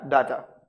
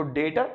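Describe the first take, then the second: First: डाटा as DAA-ta; second option. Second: डेटा as DAY-ta; long "ay" in डेटा; first option. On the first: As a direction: open "aa" in डाटा. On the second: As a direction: say डेटा with "day", not "daa". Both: Shown as a demonstration. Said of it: "दोनों अगर साथ-साथ use".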